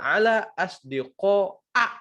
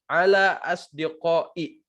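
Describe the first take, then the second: First: The last word ends with an 'a' vowel. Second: The last word ends with an 'i' vowel. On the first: The speaker calls it right. "Yang benar ala asdiqa'a, fathah" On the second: The speaker calls it wrong. "nggak boleh kita bilang eh, ala asdiqai, salah"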